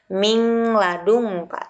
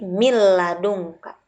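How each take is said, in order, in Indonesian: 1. Bunyi n terdengar terpisah sebelum l. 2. Bunyi n melebur menjadi bunyi l yang ganda. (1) "bukan min ladunka"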